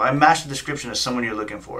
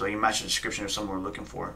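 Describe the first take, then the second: First: Incredulous repeat of his words; smart-ass echo. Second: Said in the usual way. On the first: Retold or imitated. Driver echoing the officer's excuse, smart-ass. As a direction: throw it back at him, mock disbelief. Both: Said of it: "I was being a smart ass".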